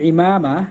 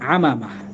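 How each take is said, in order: First: The word begins with an 'i' vowel. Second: The word begins with an 'a' vowel. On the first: This is the original Arabic form. "অর্থাৎ আরবি শব্দটি ইমামা" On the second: This is an altered form used in a poem. "এটাকে একটু ব্যতিক্রম করে উচ্চারণ করেছেন আমামা"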